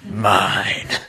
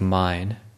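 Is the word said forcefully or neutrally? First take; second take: forcefully; neutrally. First: The word is said forcefully and possessively. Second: The word is said in a plain, neutral way. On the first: A coarse, grasping way of claiming possession. "It's like firm grasping" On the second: A polite, ordinary way of claiming possession. "if I say like Kong Pom"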